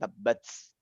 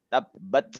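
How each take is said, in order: First: The final t ends with an s-like hiss. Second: The final t ends with a light breath. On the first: The speaker calls it wrong. "bukan tabbats" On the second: The speaker calls it right. "tapi tabbat yada, ada serpihan hamas"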